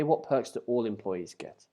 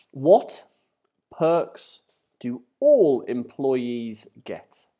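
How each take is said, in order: First: Said in the usual way. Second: WHAT, PERKS and ALL stressed loudly, with slow gaps between; word-by-word keyword emphasis. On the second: Shown as a demonstration. Teacher picking out keywords for students, slow word-by-word emphasis. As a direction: read "What perks do all employees get" slowly, punching each key word.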